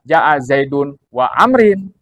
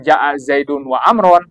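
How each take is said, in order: First: The last word ends with an i sound. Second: The last word ends with an a sound. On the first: "Jangan dibaca ... ini salah" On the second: "Jangan dibaca ... ini salah"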